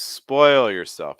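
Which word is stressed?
spoil. The stress falls on the word spoil. The speaker calls it right. "I would stress spoil"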